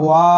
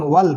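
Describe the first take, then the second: First: ওয়া with a long, held "aa" and no "l"; wrongly stretched vowel. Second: ওয়াল short, closed by "l"; no vowel lengthening. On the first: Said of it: "ওয়া পড়বো না". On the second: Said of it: "এখন ওয়াল পড়বো". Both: Shown as a demonstration.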